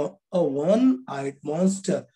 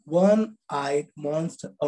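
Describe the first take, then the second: First: अ वन eyed monster read slowly; slow demo with article. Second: वन eyed monster read slowly; slow demo reading. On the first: Teacher slowly repeating the example with its article. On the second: Teacher slowly reading an example for students. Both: Shown as a demonstration. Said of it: "अ बोलेंगे".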